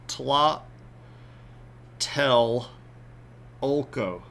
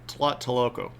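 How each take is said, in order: First: It is split into separate syllables with pauses. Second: It is said smoothly as one word.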